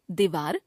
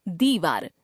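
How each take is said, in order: First: दीवार with short "di"; mispronounced first vowel. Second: Said in the usual way. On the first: Shown as a demonstration. Teacher showing a common error, दीवार with short first vowel. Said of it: "अशुद्ध". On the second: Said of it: "शुद्ध".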